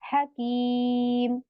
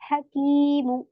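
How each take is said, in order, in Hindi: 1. शब्द सादे 'm' व्यंजन पर खत्म होता है। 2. शब्द छोटे 'u' स्वर पर खत्म होता है। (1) "मीम को साकीन बना के रुकूंगी" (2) "नीचे बना हुआ भी है"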